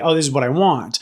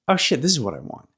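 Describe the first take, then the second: First: It is said plainly, without realization. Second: It sounds like a sudden realization.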